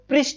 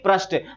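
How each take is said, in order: First: The first syllable is said with a clear 'ri'. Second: The first syllable is said with a plain 'r'. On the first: The speaker calls it right. "प में री है तो पृष्ठ होगा" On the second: The speaker calls it wrong. "ना कि पृष्ठ"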